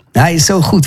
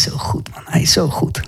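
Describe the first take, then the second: First: Said in the usual way. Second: Unvoiced, hushed whisper of praise. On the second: Real, not acted. Preacher lost in worship, whispering his praise. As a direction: breathe it out in awe.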